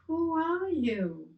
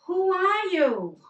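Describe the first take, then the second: First: Echo. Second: High, loud, slow shout of "Who are you?"; boy shouting into the valley; yelled question. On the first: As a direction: let it come back like a distant echo. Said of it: "And he heard". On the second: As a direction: call it out across the mountains. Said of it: "so he yelled". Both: Retold or imitated.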